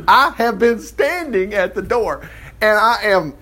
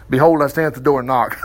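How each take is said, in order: First: Slow, high-pitched emphatic reading. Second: Said in the usual way. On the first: Acted. Preacher voicing Jesus waiting at the door, slow and emphatic. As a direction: stretch out STANDING with raised, insistent pitch. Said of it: "He's gotta put some emphasis on it". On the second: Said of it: "in the King James".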